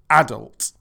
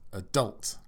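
First: It is said with the British stress pattern. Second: It is said with the American stress pattern. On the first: "in British English we say adult" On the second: "in American English [name] says adult"

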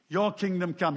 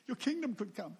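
First: It is said in a bold, confident way. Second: It is said in a timid, pleading way.

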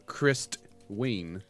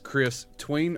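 First: It is said as one single word. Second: It is said as two separate words. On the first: The name is a single word. "one word if you say it right" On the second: The name is Chris plus the word tween. "you don't know if it's Chris Tween or"

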